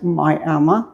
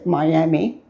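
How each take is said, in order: First: It is said with the local pronunciation. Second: It is said with the outsiders' pronunciation. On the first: This is how people from the town say it. "the locals pronounce it Miami" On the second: This is how people from elsewhere say it. "or others say Miami"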